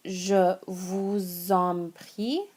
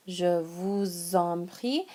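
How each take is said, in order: First: Very slow "Je vous en prie", rising on "prie"; slow French model. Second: "Je vous en prie" repeated slowly, rising on "prie". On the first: Teacher modelling "Je vous en prie" very slowly. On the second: Teacher repeating "Je vous en prie" slowly for learners. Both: Shown as a demonstration. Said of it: "the first one here".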